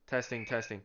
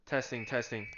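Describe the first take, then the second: No difference in how they are said.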